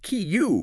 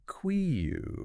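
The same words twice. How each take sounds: First: "Kiyu" as plain kyoo, higher pitched; correct pronunciation. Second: "Quiu" drawn out with a kw start; spelling pronunciation. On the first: Co-host correcting to one syllable, correct pronunciation. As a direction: say "Kiyu" like the letter Q. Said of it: "But it's just Kiyu". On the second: Co-host showing how queue looks, spelling pronunciation. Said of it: "it looks like it should be". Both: Shown as a demonstration.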